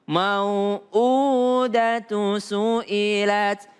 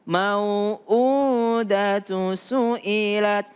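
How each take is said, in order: No difference in how they are said.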